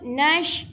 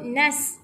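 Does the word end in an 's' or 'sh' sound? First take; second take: sh; s. First: The word ends with a 'sh' sound. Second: The word ends with an 's' sound. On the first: The speaker calls it right. "Jadi kita kena sebut nash" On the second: The speaker calls it wrong. "Kita tak boleh sebut nas"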